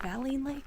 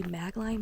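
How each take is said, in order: First: "Maline" said with no g, ma-LEEN; the right way, "Maline" as ma-leen; corrected pronunciation. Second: "Magline" said with a hard g before the n, MAG-line; the misreading, "Magline" with a g sound; wrong pronunciation. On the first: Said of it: "pronounce it wrong". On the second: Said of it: "I'm gonna pronounce it wrong". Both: Shown as a demonstration.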